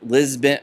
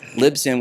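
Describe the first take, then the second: First: The name sounds like the city Lisbon. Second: The name does not sound like Lisbon. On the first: The speaker calls it wrong. "We're not Lisbon" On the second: The speaker calls it right. "It's Libsyn"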